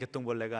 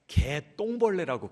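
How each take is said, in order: First: The word is said in a plain, neutral way. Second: The word is said with strong, forceful emphasis. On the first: It is just an ordinary firefly. "그냥 개똥벌레가 아니라" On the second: It is a lowly, despised creature, like a wasted life. "왜 개 그러면 뭔가 좀 억양이 강해지지 않습니까?"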